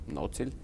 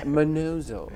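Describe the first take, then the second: First: The name is said the Viennese way. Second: The name is said the British way. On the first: This is how locals in Vienna say it. "in Vienna everybody says Nocil" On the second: This is how British people say it. "the Brits say Manozo"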